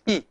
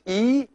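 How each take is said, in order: First: The vowel is kept short. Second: The vowel is held long. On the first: "a short E" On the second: "this one as a long E"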